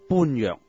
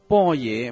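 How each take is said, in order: First: The word sounds like 'bun yeuk'. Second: The word sounds like 'bo ye'. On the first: This is the plain character-by-character reading. "如果用广州话直接读这几个字" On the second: This is the customary reading of the Buddhist term. "但是为什么般若要读成波野呢？"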